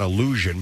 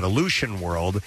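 First: Said in the usual way. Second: "Illusion" said with a SH sound in place of ZH; "Illusion" as spelt with a T, ill-LOO-shun; misspelt word pronounced. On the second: Shown as a demonstration. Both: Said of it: "I L L U T I O N".

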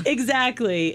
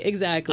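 First: Slow, laughing, higher pitch. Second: Said in the usual way. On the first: Real, not acted. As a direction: say it through a laugh. Laughing agreement, then repeated plainly.

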